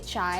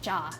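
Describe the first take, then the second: First: The word ends with an 'eye' sound. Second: The word ends with an open 'ah' sound. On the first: This is the Hindi form of the word. "In Hindi, you would say chai" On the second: This is the Punjabi form of the word. "in Punjabi, you would say cha"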